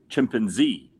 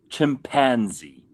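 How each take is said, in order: First: The stress is on the last syllable. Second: The stress is on the middle syllable. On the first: "I put the emphasis on Z" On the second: "They put the emphasis on that syllable"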